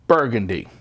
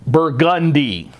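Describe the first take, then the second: First: It is said the usual wine-name way. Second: It is said the local street-name way. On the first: It names the wine. "instead of like the wine" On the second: It names the street. "We pronounce the street Burgundy"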